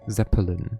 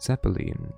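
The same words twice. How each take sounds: First: The name is said with an English pronunciation. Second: The name is said with a German pronunciation. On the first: The speaker calls it wrong. "not Zeppelin" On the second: The speaker calls it right. "then you pronounce it Zeppelin"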